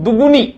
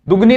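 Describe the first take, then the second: First: The word has three syllables, du-gu-ni. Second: The word has two syllables, du-gni. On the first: The speaker calls it right. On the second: The speaker calls it wrong.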